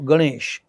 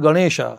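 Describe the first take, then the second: First: The name ends on the consonant without a vowel. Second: The name ends with an added long a vowel. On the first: It is the native form of the name. The speaker calls it right. "आपला कोण आहे देव?" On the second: It copies how foreigners pronounce it. The speaker calls it wrong. "आकार कशासाठी करताय?"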